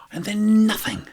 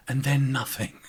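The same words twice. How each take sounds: First: And then nothing, higher and louder with stress on then; exasperated, louder And then nothing. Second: Said in the usual way. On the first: Shown as a demonstration. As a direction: blurt it out in disbelief.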